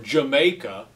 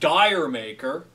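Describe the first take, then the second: First: It sounds like the single word Jamaica. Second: It sounds like the two words dire maker. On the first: The speaker calls it right. "as it's actually pronounced ... which is like the English pronunciation" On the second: The speaker calls it wrong. "Got the song Dire Maker"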